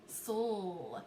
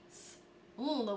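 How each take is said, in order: First: Sol as s sliding straight into l; blended sounds. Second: S, l as two sounds with a gap; separated sounds. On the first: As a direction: run s and l together in Sol. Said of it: "we wanna blend them". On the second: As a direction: break it into s, pause, l. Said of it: "we don't wanna separate the sounds". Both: Shown as a demonstration.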